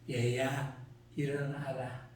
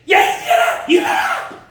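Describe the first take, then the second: First: It is said softly and gently. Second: It is shouted loudly and urgently.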